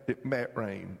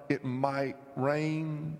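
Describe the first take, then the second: First: It is said East Tennessee style, like 'Matt'. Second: It is said with a plain, full 'might'.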